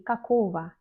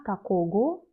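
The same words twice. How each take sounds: First: "какого" ending in va, kakova; correct spoken pronunciation. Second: "какого" with a hard g, kakogo; wrong, as-written pronunciation. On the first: Teacher showing what she does say, spoken pronunciation. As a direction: say "какого" with v for the written g. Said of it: "je dis какого". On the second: Teacher showing what she does not say, as-written pronunciation. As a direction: say "какого" ending in go. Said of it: "Je ne dis pas". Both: Shown as a demonstration.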